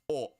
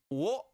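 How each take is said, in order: First: The syllable begins with a bare vowel. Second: The syllable begins with a W sound.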